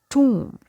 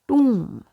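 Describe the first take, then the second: First: The vowel sounds like 'oo', with the b silent. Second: The vowel sounds like 'oo', with the b silent.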